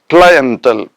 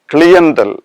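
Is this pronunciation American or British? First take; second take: American; British. First: It is said with an American pronunciation. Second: It is said with a British pronunciation. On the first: "as uh, pronounced in uh, American English" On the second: "as pronounced in uh, British English"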